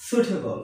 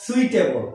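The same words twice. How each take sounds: First: সুইটেবল said "soo-te-bol"; no i glide in সুইটেবল; সুইটেবল starting with plain "soot"; correct pronunciation. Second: সুইটেবল said "sui-te-bol"; slow সুইটেবল starting like "sweet"; wrong pronunciation. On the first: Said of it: "উচ্চারণটা হবে". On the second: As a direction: glide u into i in সুইটেবল. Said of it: "not সুইটেবল". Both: Shown as a demonstration.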